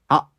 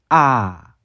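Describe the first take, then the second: First: The vowel is cut off abruptly by a catch. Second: A brief throat catch comes before the vowel. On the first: "아 하고 끊기는 발음이 들면은 성문 파열음이 뒤에 있는 겁니다" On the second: "앞에다 넣으면은 아 라고 되고"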